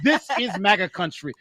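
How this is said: It is said in a Canadian-sounding accent.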